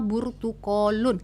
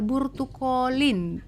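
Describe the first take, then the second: First: The word ends with an u vowel. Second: The word ends with an i vowel. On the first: "kita pakai domah" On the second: "pakai kasroh"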